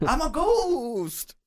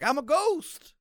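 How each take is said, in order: First: Very slow, high drawn-out ghost wail; ghostly shout. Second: Short high ghost cry; ghost call. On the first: Player running between the men: long high ghostly wail. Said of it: "So you're shouting that". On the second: Player dropping the carpet: high quick ghostly call. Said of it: "drop it like". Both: Acted.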